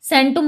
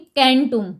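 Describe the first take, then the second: First: The word begins with a soft S sound. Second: The word begins with a hard K sound. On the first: This is how modern languages say it. "आधुनिक भाषाएं इसमें कैंटुम की जगह सेंटुम बोला जाएगा" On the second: This is the old Latin form. "Latin में ... कैसे लिखेंगे, कैंटुम"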